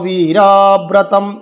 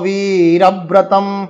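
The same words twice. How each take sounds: First: The second syllable is drawn out long. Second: The first syllable is drawn out long. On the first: The speaker calls it wrong. "এই যে বীরব্রতম রতে টান দিই এরকম নয়" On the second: The speaker calls it right. "বি দীর্ঘিতে টান আছে, ওখানেই বলতে হবে"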